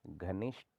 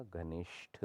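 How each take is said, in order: First: घनिष्ठ said as ghanisht; no puff of air ending घनिष्ठ; unaspirated t. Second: घनिष्ठ slowly, ending in breathy tha; aspirated th. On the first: Teacher shows the error, घनिष्ठ with ट. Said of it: "नहीं होता". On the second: Teacher corrects it, घनिष्ठ with breathy ठ. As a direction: puff air on the ठ of घनिष्ठ. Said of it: "होता है". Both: Shown as a demonstration.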